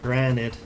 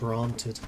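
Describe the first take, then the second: First: The word is said in an American accent. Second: The word is said in a British accent. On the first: The speaker calls it right. "I think that works a bit better with an American accent" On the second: The speaker calls it wrong. "instead of"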